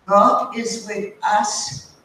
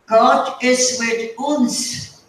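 First: Said in the usual way. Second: Put-on slow German-accented "God is with uns", with "uns" said the German way; the landlady's slow German-tinged "God is with uns"; German-accented quote. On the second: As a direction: quote Mrs Gruber slowly in her German accent, saying "uns" for "us". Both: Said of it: "And then she says".

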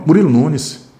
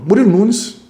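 First: Said in the usual way. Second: Hurried, blurting the name out high; nervous candidate tripping over his own name; rushed answer. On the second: Shown as a demonstration. Candidate rushing his name at the interviewer, nervous and hurried. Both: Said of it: "fala devagar".

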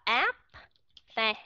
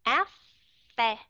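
First: Áp phe with a released P before phe; wrong pronunciation. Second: Áp phe with no released P, sounding like phe; natural Vietnamese. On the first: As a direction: say áp then phe, clearly separating them. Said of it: "Chứ không có ai đọc là áp phe". (đọc sai áp phe, bật rõ âm P) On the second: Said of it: "đọc một cách bình thường thôi". (đọc Áp phe tự nhiên, không bật âm P) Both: Shown as a demonstration.

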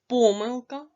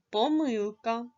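First: "Помилка" with a punched first syllable "По"; first-syllable stress. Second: "помилка" stressed on the middle syllable "ми"; second-syllable stress. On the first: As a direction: hit and stretch "По" in "Помилка". ("Помилка" з наголосом на перший склад "По") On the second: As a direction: move the stress onto "ми" in "помилка". ("помилка" з наголосом на другий склад "ми") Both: Shown as a demonstration. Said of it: "Вимов це слово двома способами".

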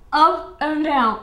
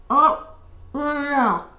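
First: Up and down drawn out very slowly, louder; slow it right down; slow demo. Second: Up and down drawn out very slowly; coaching a move, slow and deliberate; slow demo. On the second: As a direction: spell it out slowly. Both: Shown as a demonstration. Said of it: "You go".

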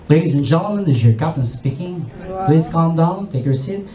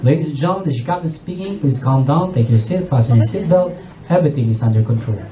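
First: Much lower, composed pilot voice; captain calming the cabin over the intercom. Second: Much lower, steady pilot announcement; composed captain. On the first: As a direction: reassure the panicked passengers. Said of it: "sabi nyo". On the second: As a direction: keep the cabin calm in turbulence. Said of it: "And compose, very positive". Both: Retold or imitated.

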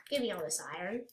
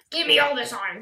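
First: Said in the usual way. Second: Loud, greedy insistence; greedy demand. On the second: Pretend. Player grabs iron in the game, greedy demand. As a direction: demand it loudly, hungry for loot.

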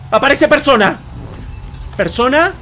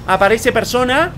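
First: Raised, exclaimed announcement; excited discovery. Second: PERSONA drawn out and rising; questioning repeat. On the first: Streamer showing viewers the radar find, excited discovery. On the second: Streamer puzzling over the radar message, questioning PERSONA with a slow rise. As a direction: say it slowly, lifting PERSONA into a question. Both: Real, not acted.

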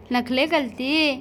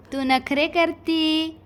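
First: नखले with l in place of r, slow and cooing. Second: Said in the usual way. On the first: Real, not acted. Repeats नखरे as baby-talk नखले. (नखले असे बोबडे, हळू उच्चारण)

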